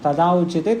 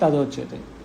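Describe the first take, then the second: First: The two words keep separate vowels, aa then u. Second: The aa and u merge into one o sound.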